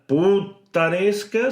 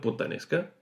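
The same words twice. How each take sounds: First: It is slow, with the double T held long. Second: It is quick, with the double T held briefly. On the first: "ya no será putanesca" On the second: "Así más rápido"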